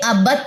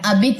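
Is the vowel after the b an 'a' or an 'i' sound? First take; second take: a; i. First: The vowel after b is a short a. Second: The vowel after b is a short i. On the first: The speaker calls it right. "ये अबत वर्ड है" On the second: The speaker calls it wrong. "अबित नहीं है"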